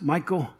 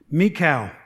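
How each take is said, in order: First: The name sounds like the English name Michael. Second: The name sounds unlike the English name Michael. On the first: "I've heard it pronounced Michael" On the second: "I'm going to pronounce it that way"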